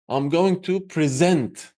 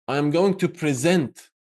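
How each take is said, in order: No difference in how they are said.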